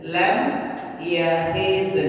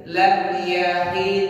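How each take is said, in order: First: "Lam" then a short pause before "yahid"; paused reading. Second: Lam yahid chanted as one joined phrase; joined reading. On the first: Teacher showing the class where to pause, separated slowly. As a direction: split "Lam" and "yahid" with a clear gap. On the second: Teacher reciting the phrase for the class, joined smoothly. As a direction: run "Lam yahid" together without a break. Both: Shown as a demonstration. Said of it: "Nah, gitu".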